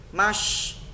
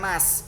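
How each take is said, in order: First: It has a full, broad 'sh' sound. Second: It has a thin, plain 's' sound. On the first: The speaker calls it right. "shin, mash penuh besar" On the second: The speaker calls it wrong. "bukan mas"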